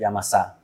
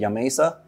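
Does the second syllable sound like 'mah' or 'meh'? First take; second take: mah; meh. First: The second syllable has an 'ah' vowel. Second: The second syllable has an 'eh' vowel. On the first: The speaker calls it right. "It's Yamasa" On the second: The speaker calls it wrong. "So some people say Yamesa. No, that's not right"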